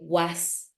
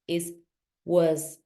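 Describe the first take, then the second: First: The word ends with a hissing S sound. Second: The word ends with a buzzing Z sound. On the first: The speaker calls it wrong. "when they say" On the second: The speaker calls it right. "it's not an S, it's was"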